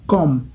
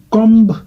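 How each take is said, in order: First: Comme ending on M, with no B sound; silent B. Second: Comb with its written B pronounced at the end; B sounded. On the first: Teacher reading it correctly, comme with the B silent. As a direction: say comme as kom, lips closed on M. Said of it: "mais on lit ça comme". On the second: Teacher showing the spelling, comb with an audible final B. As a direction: say comb as kom-buh. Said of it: "Ici, on écrit comb". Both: Shown as a demonstration.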